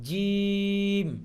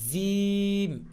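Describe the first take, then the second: First: The letter is said with the Arabic sound. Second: The letter is said with a local Bengali sound. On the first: The speaker calls it right. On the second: The speaker calls it wrong.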